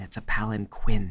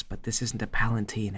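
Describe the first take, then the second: First: "palanquin" said as pal-an-keen; correcting "palanquin" under his breath; correct pronunciation. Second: "palanquin" said like "palatine", whispered; mocking mother's "palanquin" as "palatine"; mispronounced word. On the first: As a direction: stress the proper "palanquin" with a k sound. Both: Shown as a demonstration.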